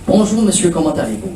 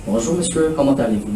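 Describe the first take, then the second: First: Natural greeting. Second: Flat, softer rote recitation, pitch dropping; recited from memory. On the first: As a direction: say it as you heard it, naturally. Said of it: "I want you to listen". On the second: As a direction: rattle it off like a memorized text. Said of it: "No. I want you to listen". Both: Shown as a demonstration.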